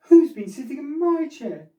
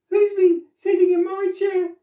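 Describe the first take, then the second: First: It is said in a middle-sized voice. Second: It is said in a teeny wee voice.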